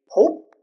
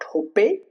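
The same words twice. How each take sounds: First: The word ends on the consonant with no vowel. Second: An extra vowel sounds after the final consonant. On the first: The speaker calls it right. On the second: The speaker calls it wrong.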